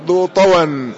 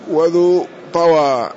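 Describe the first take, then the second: First: "طوى" said ṭawan, ending in n; tanween with fatha. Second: "طوى" said ṭawaa, slow open long ending; no tanween, fatha. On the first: Teacher showing the nunated variant, "طوى" as ṭawan. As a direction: say "طوى" with a, closing on a nasal -an. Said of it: "هذا القصر والتنوين". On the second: Teacher showing the variant without tanween, slow "طوى" as ṭawaa. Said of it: "لا ينون". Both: Shown as a demonstration.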